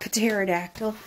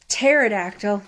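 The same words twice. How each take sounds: First: The word begins with a P sound before T. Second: The word begins with a plain T sound. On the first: The speaker calls it wrong. "not pterodactyl. That's not a word" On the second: The speaker calls it right. "you're not pronouncing the P"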